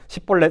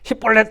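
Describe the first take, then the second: First: The word begins with an s sound. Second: The word begins with a sh sound. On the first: This marks the speaker as an outsider. The speaker calls it wrong. "S 발음을 한 거예요" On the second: This is the word they were told to say. The speaker calls it right. "십볼렛 하고 발음해보라"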